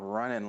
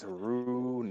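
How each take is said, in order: First: The name sounds like the word running. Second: The name sounds like Roo-nan, not running. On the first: The speaker calls it wrong. "It's not running like he's jogging" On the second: The speaker calls it right. "it's Runan"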